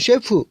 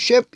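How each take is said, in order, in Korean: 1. 단어 끝에 모음이 하나 더 붙어요. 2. 단어가 마지막 자음으로 끝나요. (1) "뒤에 푸 ... 푸를 뒤에 붙이는 것은 일본식 발음입니다" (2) "원래는 이렇게 셰프"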